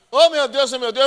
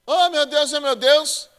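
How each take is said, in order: First: High, loud hammed-up wail, a fake swoon; mock wailing mourner. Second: High, loud hammed-up wail of a mourner about to faint; mock wailing mourner. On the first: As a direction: play the fainting mourner for laughs. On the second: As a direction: ham up a swooning mourner. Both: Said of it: "eu fazia assim".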